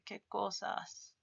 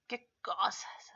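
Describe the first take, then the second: First: Said in the usual way. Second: "¿Qué cosas?" whispered slowly, falling at the end. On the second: Shown as a demonstration. Teacher whispers the example to the class. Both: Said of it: "Así".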